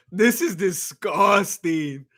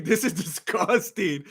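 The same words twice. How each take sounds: First: Drawn out, slowly; slow disgust. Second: Plain. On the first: Streamer reacting to a robbery decision, slow disgust. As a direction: drag each word out in disgust. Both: Real, not acted.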